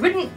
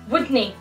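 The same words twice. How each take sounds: First: The word ends with a 't' sound. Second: The word ends with a 'nae' sound. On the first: "your wouldn't" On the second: "replace all of this, the O's and the apostrophe and T's, with A, E"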